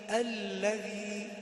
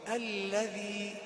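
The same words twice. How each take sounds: Both takes have the same delivery.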